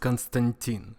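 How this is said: It is said the Russian way.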